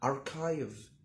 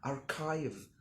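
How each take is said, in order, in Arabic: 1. الحرف الساكن في الوسط هو صوت 'k'. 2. الحرف الساكن في الوسط هو صوت 'k'.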